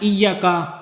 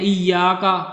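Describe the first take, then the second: First: The ya sound is cut short. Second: The ya sound is drawn out long. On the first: The speaker calls it wrong. "उसकी जगह पढ़ देना" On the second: The speaker calls it right. "जैसे हम पढ़ते हैं"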